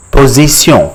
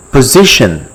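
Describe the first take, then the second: First: "position" as French po-zee-syon, nasal ending; French pronunciation. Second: Said in the usual way. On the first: Shown as a demonstration. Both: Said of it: "in French is called".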